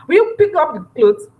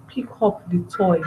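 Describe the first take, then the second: First: Higher, louder yelled order; angry parent shouting across the house; shouted command. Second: Quiet, even, close-range command; gentle parent asking a toddler; calm instruction. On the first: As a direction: yell it at the child, as the wrong way. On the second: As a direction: tell the child calmly, no shouting. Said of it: "No shouting, calm". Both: Shown as a demonstration.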